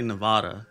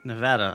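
First: Nevada with a broad "ah" in the middle; Nevada, middle vowel as in "father"; others' Nevada pronunciation. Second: Nevada with the short "a" of "cat" in the middle; Nevada as nuh-VAD-uh; own Nevada pronunciation. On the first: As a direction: say Nevada as nuh-VAH-duh. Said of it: "I hear some people say". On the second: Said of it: "I say Nevada". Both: Shown as a demonstration.

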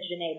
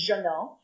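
First: Put-on Jeunet said the old way, the way she always said it; old wrong pronunciation. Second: Jeannot said the right way, set against Jeunet; correct pronunciation. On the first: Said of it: "for years I've said Jeunet". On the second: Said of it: "but it's Jeannot". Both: Shown as a demonstration.

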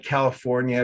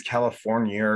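First: Said in the usual way. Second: "California" ending in "-ee-er"; added final R. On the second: Shown as a demonstration. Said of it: "Sometimes they put R's".

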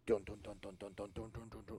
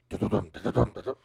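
First: Steady, even thudding "dun"; imitated running footsteps. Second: Loud, rattling bursts of "dun"; imitated galloping. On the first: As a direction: beat out footsteps running closer. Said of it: "like something running at you". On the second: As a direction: beat out hooves galloping after someone. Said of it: "just something galloping". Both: Shown as a demonstration.

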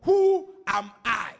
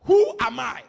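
First: "Who am I?" drawn out slow and loud; slow emphasis. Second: "Who am I?" punched hard and loud; stress on who am i. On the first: Preacher to church, "Who am I?" slow and heavy. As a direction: lean on each word of "Who am I?". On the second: Preacher to church, "Who am I?" loud and stressed. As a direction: throw "Who am I?" out loud to the congregation. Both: Shown as a demonstration. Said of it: "underline that word".

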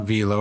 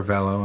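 First: Velo said VEE-lo; long-E pronunciation. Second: Velo said VELL-o; short-E pronunciation. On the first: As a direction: say Velo with a long EE in the first syllable. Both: Shown as a demonstration. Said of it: "we bought it at Velo or Velo".

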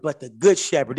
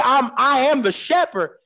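First: "good" leaned on, falling; stress on good. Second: Said in the usual way. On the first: Shown as a demonstration. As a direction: set "good" apart from plain shepherd. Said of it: "Did you catch that?". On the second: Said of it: "He didn't say".

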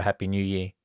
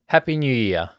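First: Said in the usual way. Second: Louder, higher cheer; yelled greeting. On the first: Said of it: "wished each other a Happy New Year". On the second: A narrator's reading. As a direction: cheer it out together. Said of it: "they all yelled in unison".

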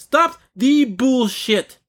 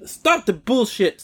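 First: Much higher, very slow and emphatic; escalated angry demand. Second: Slow, exasperated demand; angry demand. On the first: Ranting at companies that sugarcoat, escalated word-by-word demand. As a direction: hammer out each word, drawn out and high. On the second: Ranting at companies that sugarcoat, slow exasperated demand. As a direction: draw it out, fed up. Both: Real, not acted.

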